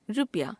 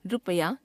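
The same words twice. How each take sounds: First: Said in the usual way. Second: रुपया as three beats, "ru-pa-yaa"; wrong pronunciation. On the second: Shown as a demonstration. Teacher showing a common error, रुपया said as "ru-pa-yaa". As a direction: sound the middle a of रुपया, rising at the end. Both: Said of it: "अशुद्ध".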